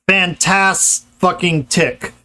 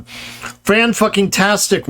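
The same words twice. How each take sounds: First: "fantas-fucking-tic" said slowly, the infix placed before the last syllable "tic"; wrong infix demo. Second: "fan-fucking-tastic" said slowly, the infix set right before the stressed "tastic"; correct infix demo. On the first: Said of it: "doesn't work". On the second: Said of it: "works great". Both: Shown as a demonstration.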